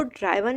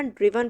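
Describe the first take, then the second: First: "ड्राइवन" with an eye vowel, as in drive; wrong pronunciation. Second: "ड्रिवन" with a short i in the first syllable; correct pronunciation. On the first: Teacher warning students off a misreading, mispronounced "ड्राइवन" with an eye sound. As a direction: say "ड्राइवन", first syllable like "drive". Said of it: "अब इसको ड्राइवन नहीं पढ़ना". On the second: Teacher showing students the right reading, "ड्रिवन" with a short i. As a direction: say "ड्रिवन", first vowel as in "drip". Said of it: "ड्रिवन पढ़ना है". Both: Shown as a demonstration.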